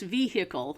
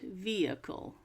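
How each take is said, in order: First: The h in the middle is clearly sounded. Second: The h in the middle is left silent. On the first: The speaker calls it wrong. "I thought it was pronounced vehicle" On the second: The speaker calls it right. "so the H is silent"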